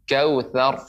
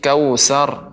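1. Konsonan tengahnya adalah bunyi th yang lembut. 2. Konsonan tengahnya adalah s desis biasa. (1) "lidah ... menekan gigi seri sehingga dia keluar di celah-celahnya. Nah, demikian" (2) "tsa tidak boleh seperti kautsar. Bukan huruf sin ya"

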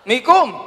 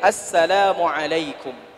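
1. Salamnya diucapkan pendek, menjadi dua suku kata. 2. Salamnya diucapkan lengkap, setiap suku katanya. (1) "Itu beda lagi tuh" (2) "yang tepat mengucapkannya dengan kalimat assalamu alaikum"

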